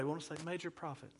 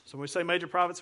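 First: Much softer mock-sad "major prophets"; hammed-up vulnerability voice, softly; sad, vulnerable. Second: Said in the usual way. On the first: Shown as a demonstration. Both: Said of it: "we wanna say it in a sad way".

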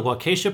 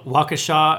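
First: Waukesha said as "wah-KAY-sha"; second syllable stressed. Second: Waukesha said as "WAH-kuh-shaw"; corrected pronunciation. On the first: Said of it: "sorry if I'm saying that wrong". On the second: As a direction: open "shaw" ending on Waukesha, short "kuh" middle. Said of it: "it's probably pronounced". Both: Shown as a demonstration.

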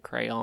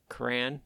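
First: "crayon" in two syllables, "cray-on". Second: "crayon" squashed into one syllable, like "cran". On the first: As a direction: say "crayon" fully, as "CRAY-ahn". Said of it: "I call it crayon". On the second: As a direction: say "crayon" as "cran", rhyming with ran. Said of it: "Everyone else calls it crayon". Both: Shown as a demonstration.

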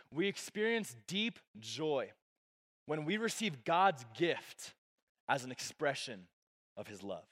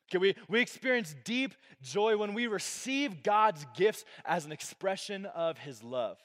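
First: Slow and deliberate. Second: Said in the usual way. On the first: Shown as a demonstration. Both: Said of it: "I'll say it like this".

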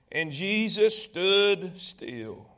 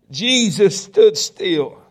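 First: Very slow, softer, weighty reading; slow, hushed emphasis. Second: JESUS STOOD STILL slow and loud, each word weighted; emphatic repeat. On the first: Preacher reading the moment Jesus stops, slow and hushed. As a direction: let each word settle, drawn out and quieter. Preacher slows on the key phrase. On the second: Preacher driving the phrase home to congregation, slow and emphatic. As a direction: proclaim "Jesus stood still" louder and drawn out. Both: A narrator's reading.

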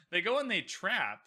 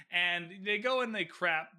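First: Said in the usual way. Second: "crap" said with a hard k where "trap" was meant; slip of the tongue. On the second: Shown as a demonstration. Vlogger misreading the plot, saying "crap" for "trap". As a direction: stumble into "crap" instead of "trap". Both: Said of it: "or crap".

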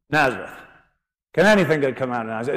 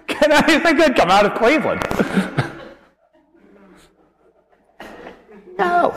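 First: Quick, scornful scoff at the town; a rapid, dismissive sneer; scoffing doubt. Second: Giggling through a joke about Cleveland; laughing. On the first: Acted. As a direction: toss the question off with disdain. Nathanael scoffs at Nazareth. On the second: Real, not acted. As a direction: squeeze the question out while cracking up. Preacher cracks up at own joke.

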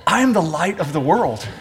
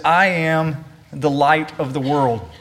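First: Said offhand through a little laugh; a neighbour leaning over with a chuckle; casual with a laugh. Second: Solemn claim. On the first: Pretend. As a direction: pass it off like a joke to a pew neighbour. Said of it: "lean over and whisper in your ear". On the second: Shown as a demonstration. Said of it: "this is an extraordinary claim".

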